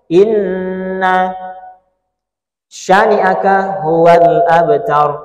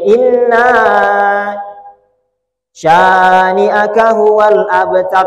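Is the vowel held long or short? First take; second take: short; long. First: The vowel is said short, not held. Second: The vowel is held long, drawn out. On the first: The speaker calls it wrong. "Itu salah" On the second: The speaker calls it right. "panjangkan di situ"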